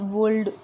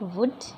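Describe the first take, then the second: First: The l is sounded. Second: The l is silent. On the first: The speaker calls it wrong. "नहीं बोल पाते हैं, बोलने में ही गलत लगता है" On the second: The speaker calls it right. "Actual इसका प्रोनाउंसिएशन"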